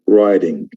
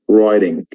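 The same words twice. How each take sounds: First: It has an American accent with a soft d-like t. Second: The same.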